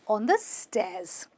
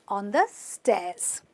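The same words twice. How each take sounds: The two takes are said the same way.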